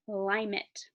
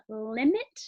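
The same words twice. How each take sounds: First: LIMIT as a slow "LIE-mit"; long I. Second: LIMIT with "lim" as in "limb", rising; short I. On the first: Teacher offering second of two readings, long I. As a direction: say LIMIT with the first i saying its name. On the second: Teacher offering first of two readings, short I. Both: Shown as a demonstration. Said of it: "I have to say it both ways".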